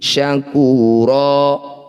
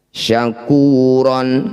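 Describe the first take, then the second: First: The word ends on a long vowel, no n. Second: The word ends with a final n sound. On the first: The reading stops on this word. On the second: The reading continues without stopping.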